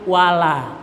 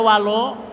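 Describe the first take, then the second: First: The final vowel sounds open, like 'a'. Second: The final vowel sounds rounded, like 'o'. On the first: The speaker calls it right. "utuhkan lam alif" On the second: The speaker calls it wrong. "Wala jangan dibaca walo"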